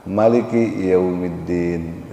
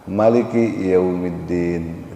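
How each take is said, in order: First: The vowel after the m is short. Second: The vowel after the m is short.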